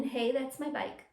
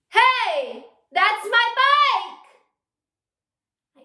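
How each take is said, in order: First: Said in the usual way. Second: Very loud, high, dragged-out furious shout; angry yell. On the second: Shown as a demonstration. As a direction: yell at the thief riding off on your bike. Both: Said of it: "we're angry now".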